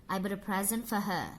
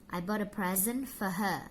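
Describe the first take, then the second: The two takes are said the same way.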